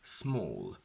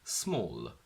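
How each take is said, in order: First: The final L is dark and deep in the throat. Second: The final L is clear and light. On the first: The speaker calls it right. "it has to end on a dark L" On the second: The speaker calls it wrong. "instead of the dark L we use a clear L, that's a mistake"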